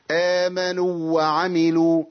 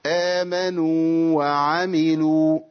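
First: آمنوا وعملوا with the two واو merged into one doubled و; slow demo of the idgham mistake; wrong merged reading. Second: آمنوا held long on the و before وعملوا starts fresh; slow recited tajweed, madd kept; correct recitation. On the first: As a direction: run the و of آمنوا straight into وعملوا, no madd. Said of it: "أنا كده أضغمت". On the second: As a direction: give the madd of آمنوا its full time, then وعملوا. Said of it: "هاتها لنا بقى بنطقها الصحيح". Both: Shown as a demonstration.

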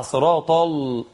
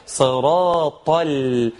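First: صراط followed by a thick, dark "l"; heavy lam error. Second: صراط chanted slowly into a light "l"; thinned lam. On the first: Teacher shows the mistake, صراط with heavy lam. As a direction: darken the l right after صراط. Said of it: "من الخطأ تفخيمها". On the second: Teacher corrects the mistake, صراط with light lam. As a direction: keep the l after صراط thin and clear. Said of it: "ترقيق اللام". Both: Shown as a demonstration.

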